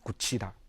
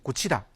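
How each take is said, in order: First: The word is said slowly, keeping the final consonant. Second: The word is said quickly, dropping the final consonant. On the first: "느린 발음에서는" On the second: "빠른 발음에서는"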